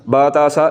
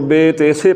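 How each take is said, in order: First: The letter names end with an 'ah' vowel. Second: The letter names end with an 'ay' vowel. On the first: The speaker calls it right. "अरबी पढ़ते हुए हमने बा ता सा" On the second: The speaker calls it wrong. "Urdu में हम जब हरफों को पढ़ते हैं तो बे ते से पढ़ते हैं"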